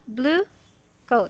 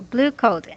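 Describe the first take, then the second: First: There is a pause between the two words. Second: The two words run together with no pause. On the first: The speaker calls it wrong. "not blue coat. So don't uh, make pause" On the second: The speaker calls it right. "So blue coat"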